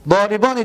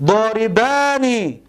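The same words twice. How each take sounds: First: Said in the usual way. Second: داربانی spelled out slowly, each syllable stretched long; slow drawn-out model word. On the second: Shown as a demonstration. (داربانی را آهسته و کشیده، هجا به هجا بگو) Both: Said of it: "داربانی، دو مرد زننده".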